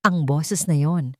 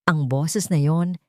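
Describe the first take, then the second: No difference in how they are said.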